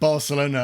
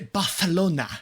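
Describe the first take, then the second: First: It is said with a plain English accent. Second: It is said with an exaggerated Spanish accent. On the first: "When they read Barcelona" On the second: "suddenly turn extremely Spanish"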